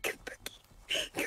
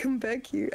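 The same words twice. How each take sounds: First: Slow hushed whisper; eerie slow whispered call; creepy whisper. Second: Said in the usual way. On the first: Pretend. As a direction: beckon softly in the dark. Whispered chase, then repeated plain.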